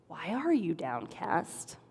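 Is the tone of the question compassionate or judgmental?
compassionate. The question sounds gentle and caring. The asker truly wants to know. The speaker calls it right. "It was actually a very compassionate question"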